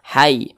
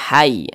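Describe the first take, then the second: No difference in how they are said.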